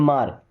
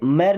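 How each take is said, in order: First: The vowel sounds like the one in 'car'. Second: The vowel sounds like the one in 'air'. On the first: The speaker calls it right. "पढ़ते मार" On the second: The speaker calls it wrong. "इसे मैर नहीं पढ़ते"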